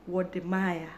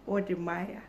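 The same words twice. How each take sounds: The two takes are said the same way.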